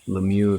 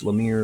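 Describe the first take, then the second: First: The name is said with a French pronunciation. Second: The name is said with an American pronunciation. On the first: "Lemieux if you want to throw a little bit of French at it" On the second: "Lemire if you're an American"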